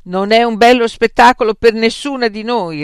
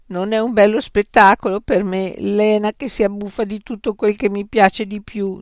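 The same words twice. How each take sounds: First: Loud, higher retort; sharp retort. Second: Whining, hard-done-by complaint; plaintive. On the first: Frank snapping back at Beatrice, loud. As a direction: fire it back at her. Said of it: "ribatté Frank". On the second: Beatrice complaining about Lena's feasting, plaintive. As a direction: moan it like a wronged friend. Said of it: "in tono lamentoso". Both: A narrator's reading.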